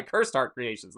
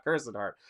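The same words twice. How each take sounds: First: "Cursed" closed straight into a T, one beat; correct name pronunciation. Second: "Cursed" with an extra -ed beat; mistaken name pronunciation. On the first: Streamer correcting a misread channel name, "Cursed" in one syllable. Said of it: "not Cursed Heart". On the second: Streamer showing the misreading to avoid, "Cursed" as curse-ed. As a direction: say "Cursed" as two syllables, curse-ed. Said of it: "that's just gonna happen with us". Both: Shown as a demonstration.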